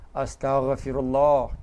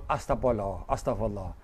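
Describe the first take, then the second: First: Slow, careful "Astaghfirullah" with a clear gh and every syllable full; said properly. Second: Sloppy quick "Astagfirullah" slurred to astapolo; said wrongly. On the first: Preacher showing the congregation the right way to say it. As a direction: pronounce "Astaghfirullah" slowly, gh from the throat. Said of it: "Kena sebut molek lah". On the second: Preacher mocking the careless way people say it. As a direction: mumble "Astagfirullah" fast, swallowing the gh. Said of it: "Jangan sebut". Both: Shown as a demonstration.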